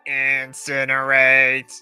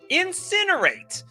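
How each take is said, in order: First: It is said in a mechanical robot voice. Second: It is said in a normal speaking voice.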